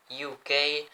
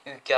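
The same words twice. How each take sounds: First: U K as English letter names, "you kay"; English-style spelling out of U K; English accent. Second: Said in the usual way. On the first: Shown as a demonstration. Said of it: "Comment je me la pète avec mon accent". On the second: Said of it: "je vous lis tout en anglais".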